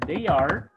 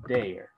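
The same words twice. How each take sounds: First: Said in the usual way. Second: "their" contracted, pitch falling; forma abreviada. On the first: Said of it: "en vez de decir". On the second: Shown as a demonstration. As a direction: merge they and are into a low "their". ("their" contraído, con tono descendente)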